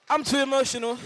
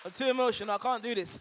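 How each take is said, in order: First: Choked up. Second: Overcome with emotion. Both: Real, not acted.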